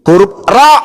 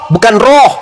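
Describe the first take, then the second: First: The letter name ends in an open 'a'. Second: The letter name ends in a rounded 'o'. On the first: The speaker calls it right. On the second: The speaker calls it wrong.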